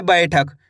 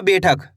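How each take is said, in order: First: बैठक with an open 'ai' glide in the first syllable; correct ai vowel. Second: बैठक mispronounced as beh-thak, with a pure e; wrong e vowel. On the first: Teacher models the right reading, open ai in बैठक. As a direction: say बैठक as bai-thak. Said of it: "इस तरीके से आपको पढ़ना है". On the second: Teacher shows pupils the mistake, बैठक said as bethak. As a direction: flatten the ai of बैठक into a long e. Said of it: "ऐसे नहीं पढ़ना". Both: Shown as a demonstration.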